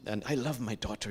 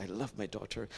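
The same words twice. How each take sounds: First: Said in the usual way. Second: Softer, lower, tender; a softer, heartfelt second take; tender repeat. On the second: Retold or imitated. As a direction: let the repeat sink in tenderly. Repeated, father's love for daughter.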